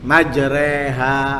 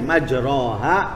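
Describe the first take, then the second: First: The second vowel sounds like 'e'. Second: The second vowel sounds like 'o'. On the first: "Sama dengan kalau kita membaca" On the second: "ada yang membaca majroha"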